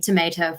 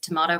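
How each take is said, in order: First: Tomato is said with an American accent. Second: Tomato is said with an Australian accent.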